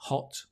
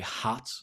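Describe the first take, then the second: First: The vowel is short and clipped. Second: The vowel is drawn out and long. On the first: This is the British way of saying it. "which is quite short" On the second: This is the American way of saying it. "it's a longer sound"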